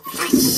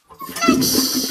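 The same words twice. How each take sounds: First: "Flush" breathed as a whisper. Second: High, sung-out flush noise; mock flush sound. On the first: Pretend. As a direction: whisper "Flush" like the water rushing. Flushing again. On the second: Imitating the toilet flush.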